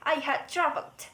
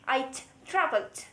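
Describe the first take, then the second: First: The word had is said in full. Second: The word had is contracted onto I. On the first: "We don't always want to say I had traveled" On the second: "we insert a contraction, and here we are going to push the subject and the head together"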